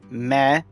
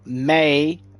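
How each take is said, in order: First: The syllable has a short 'eh' vowel. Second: The syllable has a long 'ay' vowel. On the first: The speaker calls it right. "M E S A, meh" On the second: The speaker calls it wrong. "not May"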